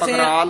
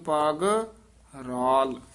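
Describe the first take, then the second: First: The two words run together without a break. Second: The two words are separated by a break. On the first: The speaker calls it wrong. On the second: The speaker calls it right.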